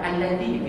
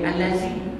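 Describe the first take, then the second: First: The middle consonant is a soft 'th' sound. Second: The middle consonant is a buzzing 'z' sound. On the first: The speaker calls it right. "tetap Alladhi" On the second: The speaker calls it wrong. "tidak boleh bunyi Allazi"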